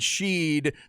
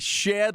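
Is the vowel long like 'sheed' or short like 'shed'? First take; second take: long; short. First: The vowel is long, as in 'sheed'. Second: The vowel is short, as in 'shed'. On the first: The speaker calls it wrong. "I hear a lot of people saying Sheed" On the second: The speaker calls it right. "we say Shed like in the backyard"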